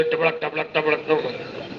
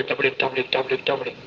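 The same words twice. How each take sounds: First: Soft clicking gallop noises; clip-clop like hooves, quietly; horse hoof sounds. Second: Soft clip-clop sounds in the mouth; horse hoof sounds. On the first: Retelling the youth's horse music, soft clip-clop. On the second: Youth mimics horse's gallop in his sermon, softly clip-clopping. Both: Retold or imitated. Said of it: "घोड़े की music भी दे रहा".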